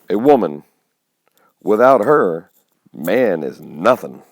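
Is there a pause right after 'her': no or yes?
yes. There is a pause after 'her'.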